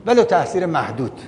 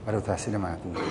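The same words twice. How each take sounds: First: Said in the usual way. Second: Low, much softer voice; quiet repeat. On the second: Real, not acted. Lecturer repeats his concession to the listeners, low and quiet. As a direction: say it low, as an afterthought.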